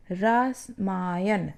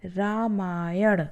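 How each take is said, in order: First: रामायण slowly drawn out with a stray s sound; wrong form. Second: रामायण slowly with a retroflex ण at the end; correct form. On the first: (रामायण गलत ढंग से धीरे) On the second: (रामायण धीरे, ण साफ़) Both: Shown as a demonstration. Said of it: "जबकि क्या होता है".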